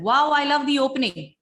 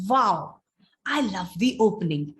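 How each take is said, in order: First: It runs on without a pause after 'wow'. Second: A pause follows a louder 'wow', then softer words. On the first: The speaker calls it wrong. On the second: The speaker calls it right.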